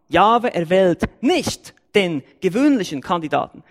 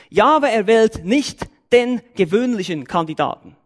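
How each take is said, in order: First: Nicht hit hardest, Jahwe left light; stress on nicht. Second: Jahwe punched at the start, sentence falling away after; stress on Jahwe. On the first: Preacher repeating his point to the church, stress on nicht. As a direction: lean on nicht to make the denial land. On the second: Preacher stating his first point, stress on Jahwe. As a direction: lead with Jahwe, the rest level and falling. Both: Shown as a demonstration. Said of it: "Gut aufpassen".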